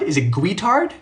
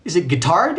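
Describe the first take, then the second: First: "guitard" said GWEE-tard, questioning. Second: "guitard" said gih-TARD, questioning; hard-g "guitard". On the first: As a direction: try "guitard" with a w after the g. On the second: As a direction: try "guitard" with a plain g, no w sound. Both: Shown as a demonstration. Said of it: "How do you pronounce this".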